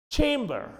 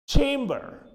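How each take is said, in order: Both takes have the same delivery.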